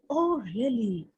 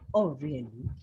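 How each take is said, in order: First: The voice sounds anxious and worried. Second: The voice sounds sincere and earnest. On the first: The speaker is worried. "So you are worried" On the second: The speaker is being sincere. "So you are very sincere"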